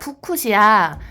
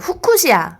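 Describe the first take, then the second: First: The word begins with a p sound. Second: The word begins with an h sound. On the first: The speaker calls it right. "네, 푸쿠시아예요, 푸쿠시아" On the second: The speaker calls it wrong. "저는 후쿠시아로 들어가지고 약간 일본어인 줄 알았어요"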